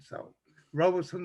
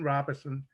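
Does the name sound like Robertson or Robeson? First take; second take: Robeson; Robertson. First: The name sounds like Robeson, without an r. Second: The name sounds like Robertson, with an r. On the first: This is how people from elsewhere say it. "others who are not from here, uh, they they say Robeson" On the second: This is how local people say it. "we actually pronounce it Robertson"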